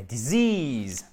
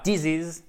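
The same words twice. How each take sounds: First: "disease" as di-ZEEZ, second vowel drawn out slowly; long I. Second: "disease" stressed at the front, DEE-ziz, short ending; wrong pronunciation. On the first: Teacher correcting students with di-ZEEZ, long stressed I in "disease". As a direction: stretch the end of "disease": di-ZEEEZ. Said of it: "Avec un i long ici". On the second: Teacher showing what not to say, mispronounced DEE-ziz for "disease". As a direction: say "disease" wrongly, first syllable heavy, last one short. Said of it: "Et pas disease". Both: Shown as a demonstration.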